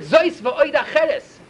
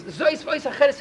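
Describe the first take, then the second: First: Spelled out very slowly, word by word; slow inscription reading. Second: Said in the usual way. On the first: Shown as a demonstration. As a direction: read the carved words out slowly and deliberately.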